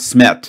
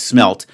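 First: The L sound is left out of the word. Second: The L sound is clearly pronounced in the word. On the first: The speaker calls it wrong. "no, it's not smet" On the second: The speaker calls it right. "it's smelt"

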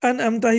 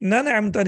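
First: The word starts with a vowel. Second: The word starts with an 'n' sound. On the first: The speaker calls it right. "ये हमज़तुल क़त्अ है, तो इसको अनअमता ही पढ़ेंगे" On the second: The speaker calls it wrong. "नन अमता नहीं पढ़ सकते, that will be a mistake"

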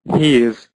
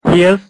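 First: It is said as one contracted word. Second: It is said as two full separate words.

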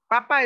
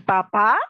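First: The stress is on the first syllable. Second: The stress is on the last syllable. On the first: It means the potato. "Papa es la que nos comemos" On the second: It means the father. "con acento en la A"

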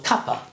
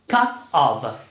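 First: The words blend into one short reduced word. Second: The two words are said fully and separately. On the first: "So, cuppa" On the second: "This is what it means"

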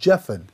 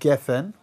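First: The word begins with a j sound. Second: The word begins with a hard g sound. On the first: The speaker calls it right. "They say bori priat jefen. And the gimel is a j sound" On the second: The speaker calls it wrong. "they don't say bori priat gefen like we do"

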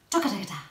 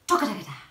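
No difference in how they are said.

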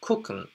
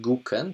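First: The word begins with a voiceless k sound. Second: The word begins with a voiced g sound. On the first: "tylko jako gucken, bo on w takiej mowie potocznej jest słyszalny jako k" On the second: "ja nie wypowiadam go jako gucken"

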